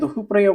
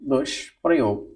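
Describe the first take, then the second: First: An h sound comes before prayog. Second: A sh sound comes before prayog. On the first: The speaker calls it wrong. "गलत है ये" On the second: The speaker calls it right. "मूर्धन्य ष"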